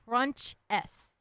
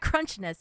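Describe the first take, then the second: First: The name ends with a separate letter S. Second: The name is said as one blended word. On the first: The speaker calls it right. "it's Crunch S" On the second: The speaker calls it wrong. "I was saying your name wrong"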